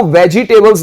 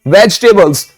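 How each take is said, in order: First: "वेजिटेबल्स" with an extra "ee", ve-jee-tay-bles; mispronounced vegetables. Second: "वेजिटेबल्स" with the middle vowel dropped, vej-tay-bles; correct vegetables pronunciation. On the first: Teacher shows students what not to say, "वेजिटेबल्स" as ve-ji-tay-bles. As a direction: say "वेजिटेबल्स" in four parts, sounding the middle "ji". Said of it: "इसको वेजिटेबल्स नहीं बोलते". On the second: Teacher gives students the proper word, "वेजिटेबल्स" as vej-tay-bles. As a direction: squeeze "वेजिटेबल्स" into three parts, no "ji". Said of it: "क्या बोलते हैं भाई?".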